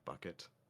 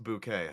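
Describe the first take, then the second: First: The name is said plainly like the word bucket. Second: The name is said with a fancy French-like sound. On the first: It sounds plain and common. The speaker calls it wrong. "not bucket" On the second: It sounds refined and upper class. The speaker calls it right. "It was pronounced bouquet"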